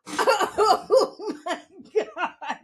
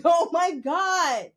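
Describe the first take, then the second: First: Very slow, laughing and higher; laughing oh my god. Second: Louder, slow exclamation; mock shout. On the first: Retold or imitated. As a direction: stretch it out between laughs. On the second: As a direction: cry it out in disbelief. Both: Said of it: "I was like".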